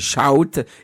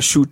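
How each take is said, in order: First: The vowel is an 'ow' sound. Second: The vowel is a long 'oo' sound. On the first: The speaker calls it right. "c'est shout ... OU, ça se dit out" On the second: The speaker calls it wrong. "c'est pas shoot"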